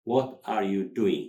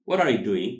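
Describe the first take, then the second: First: Slow, each word set apart; slow word-by-word model. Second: Louder, words run together; natural linked delivery. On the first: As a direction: model it carefully for learners. Teacher says it word by word. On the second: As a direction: model it as one connected phrase. Teacher says it linked. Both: Shown as a demonstration.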